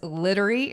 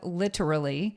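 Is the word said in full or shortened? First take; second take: shortened; full. First: The word is shortened, like 'littery'. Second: The word is said in full. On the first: A young child says it this way. The speaker calls it wrong. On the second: This is the usual way to say it. The speaker calls it right.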